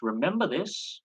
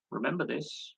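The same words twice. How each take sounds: First: Rising, pointed emphasis on Remember; emphatic reminder. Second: Quieter, falling "Remember this"; softer repeated reminder. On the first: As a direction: lean hard into "Remember this" as a warning. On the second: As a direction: drop the voice and let "Remember this" sink in. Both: Real, not acted. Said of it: "This is very crucial".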